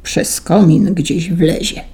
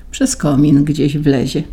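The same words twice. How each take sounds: First: Slow, menacing mutter; ominous mutter. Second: Said in the usual way. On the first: A narrator's reading. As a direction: let it hang as a threat. (złowieszcze, powolne mruknięcie) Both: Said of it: "mruknął złowieszczo".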